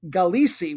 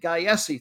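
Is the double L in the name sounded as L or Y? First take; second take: L; Y. First: The double L is sounded as an L. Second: The double L is sounded as a Y. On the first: The speaker calls it right. "they were saying his name as Pedro Galici" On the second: The speaker calls it wrong. "had the Latin double L as a single letter for the Y"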